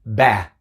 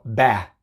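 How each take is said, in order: No difference in how they are said.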